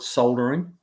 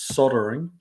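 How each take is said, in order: First: The L sound in the word is pronounced. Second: The L sound in the word is silent. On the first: This is how New Zealanders say it. "Kiwis call it soldering" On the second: This is how Americans say it. "here in the States, it's soldering, like it just S O D"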